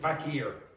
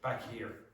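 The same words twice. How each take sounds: First: The h is dropped, linking the two words. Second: The h is clearly pronounced, words kept separate. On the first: "that H can disappear if you speak very quickly" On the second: "I would probably not have that catenation"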